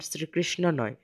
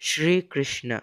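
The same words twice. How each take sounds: First: শ্রীকৃষ্ণ opened with a dental s, sri; wrong pronunciation. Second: শ্রীকৃষ্ণ slowly, opened with sh; Sanskrit pronunciation. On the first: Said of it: "শ্রীকৃষ্ণ নয়". (শ্রীকৃষ্ণ, শুরুতে দন্ত্য স দিয়ে) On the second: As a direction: say শ্রীকৃষ্ণ as shree-krishna, drawn out. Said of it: "এটা হবে". (শ্রীকৃষ্ণ, তালব্য শ দিয়ে ধীরে) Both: Shown as a demonstration.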